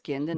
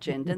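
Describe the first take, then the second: First: The start does not sound like 'gin'. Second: The start sounds like the word 'gin'. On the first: The speaker calls it right. "So it's Gindin" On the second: The speaker calls it wrong. "not to pronounce it like the thing you put in the glass and put tonic with it"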